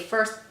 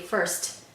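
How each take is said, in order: First: The final T has no puff of air. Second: The final T has a breathy puff of air. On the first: The speaker calls it wrong. "We don't say first" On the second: The speaker calls it right. "these T's sound breathy, aspirated"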